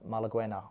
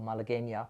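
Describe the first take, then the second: First: It is said with an English pronunciation. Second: It is said with a Spanish pronunciation.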